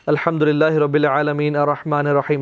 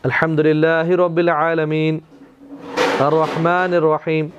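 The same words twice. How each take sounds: First: The two verses run together without a pause. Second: There is a pause between the two verses.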